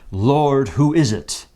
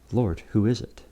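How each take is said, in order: First: It is proclaimed loudly in a grand theatrical voice. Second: It is said quietly, almost privately.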